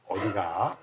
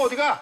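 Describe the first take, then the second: First: It is said in a lower, calmer tone. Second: It is said in a sharp, scolding tone. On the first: The parent is simply asking where the child goes. The speaker calls it right. "그냥 톤을 다운 시켜보면" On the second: The parent is reprimanding the child. The speaker calls it wrong. "이거는 완전히 혼을 내는 건데"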